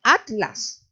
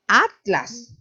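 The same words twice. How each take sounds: First: "atlas" separado at-las, como en España; pronunciación de España. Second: "atlas" con la tl junta, a la mexicana; pronunciación mexicana. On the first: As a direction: di "atlas" cortando entre la t y la l. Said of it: "Ellos se paran así". ("atlas" a la española, sílabas at y las) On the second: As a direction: di "atlas" como a-tlas, sin separar t y l. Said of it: "ellos no dicen". ("atlas" pronunciado a-tlas, con tl en una sola sílaba) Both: Shown as a demonstration.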